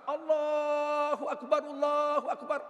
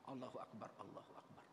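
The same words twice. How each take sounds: First: It is said loudly and forcefully. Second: It is said quietly and softly. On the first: The repeater calls the words out to everyone. "Baru keras" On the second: The first caller says the words for another to repeat. "sekali pelan"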